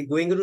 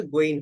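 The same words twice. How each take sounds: First: Said in the usual way. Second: "গোয়িং" ending on a bare n, as "goin"; final g dropped. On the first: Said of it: "গোয়িং এর উচ্চারণটা হচ্ছে". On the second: Shown as a demonstration. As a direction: leave the g off the end of "গোয়িং". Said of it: "লাস্টে জিটাকে বাদ দিয়ে দেবো".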